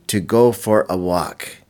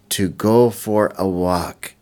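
No difference in how they are said.

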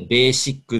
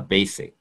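First: It is said with Japanese katakana pronunciation. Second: It is said with English pronunciation. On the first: "カタカナでベーシックって言ったりしますけれども" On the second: "英語の発音としてはBasic"

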